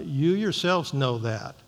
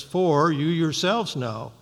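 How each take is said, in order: First: Said in the usual way. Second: "For you yourselves know" read slowly with "yourselves" weighted; emphatic stress. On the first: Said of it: "it's emphatic". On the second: Shown as a demonstration. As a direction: stress on "yourselves", slow and deliberate. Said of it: "it's emphatic in the, in the Greek".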